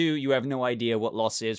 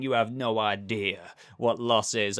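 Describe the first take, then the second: First: Pedro Pascal's delivery. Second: A lightly put-on American accent, self-mocking; bad Joel accent. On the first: Retold or imitated. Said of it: "comparing it to". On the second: Vlogger mimicking Joel's line in a weak American accent. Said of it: "I'm a terrible example there in that accent".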